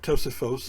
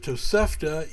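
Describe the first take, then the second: First: The word ends with an 'os' sound. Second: The word ends with a 'ta' sound.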